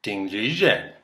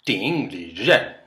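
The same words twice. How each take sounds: First: "Ding Lizhen" at normal speed with a falling end on "Lizhen"; alternate name pronunciation. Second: "Ding Lizhen" said slowly, syllable by syllable; careful name pronunciation. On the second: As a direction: sound out "Ding Lizhen" trying a second tone pattern. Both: Shown as a demonstration.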